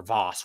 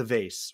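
First: "vase" as VAHS, the fancier variant. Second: "vase" as VAYSS, ending in an S; vase rhyming with face. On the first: Storyteller correcting himself on the flower container, "vase" as VAHS. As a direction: say "vase" with an AH, like "father". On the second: Storyteller offering two names for the flower container, "vase" as VAYSS. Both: Shown as a demonstration. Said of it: "whatever you call it".

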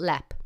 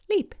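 First: "Leap" with a short open vowel, "lapp"; local pronunciation. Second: "Leap" with a long ee; spelling pronunciation. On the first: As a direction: say "Leap" as LEP or LAP. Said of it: "No, it's called". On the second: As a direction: read "Leap" like the English word for jump. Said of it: "spelled L E A P". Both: Shown as a demonstration.

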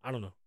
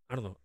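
Both takes have the same delivery.

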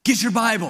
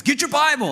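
First: Mildly raised, higher-pitched order; first, milder mock yell; imitated yelling dad. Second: High-pitched mock yell, insistent; worked-up dad, pitch shooting up; imitated yelling dad. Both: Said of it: "Why are you yelling at me?".

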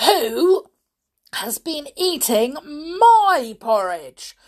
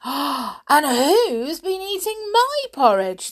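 First: Loud, halting outrage, word by word; angry father bear. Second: High, loud, slow indignant mama bear; mother bear. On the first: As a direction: boom out each accusing phrase with pauses. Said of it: "said the father bear angrily". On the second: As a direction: raise the pitch and draw out the complaint. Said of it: "said the mother bear". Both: A narrator's reading.

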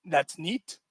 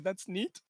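First: Flat, unimpressed "That's neat"; quoting dad's deadpan "That's neat"; deadpan reaction. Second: Much softer, throwaway "That's neat"; a barely audible repeat of dad's "That's neat"; softer deadpan. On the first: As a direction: shrug it off dryly. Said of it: "my reaction was". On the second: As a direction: mutter it under your breath. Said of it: "My reaction was". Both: Retold or imitated.

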